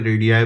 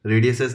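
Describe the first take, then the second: First: रेडियाई said as the correct plural, ending in -ai. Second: रेडियसेस said as the incorrect plural, ending in -ses; wrong plural. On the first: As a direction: say रेडियाई as the proper form. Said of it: "रेडियाई बोलते हैं". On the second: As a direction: say रेडियसेस as the mistaken form. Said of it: "रेडियसेस नहीं बोलते हैं". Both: Shown as a demonstration.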